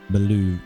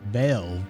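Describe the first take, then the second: First: The name has two syllables. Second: The name has one syllable. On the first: "Beluv would not work" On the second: "Belv is what I'm seeing on here"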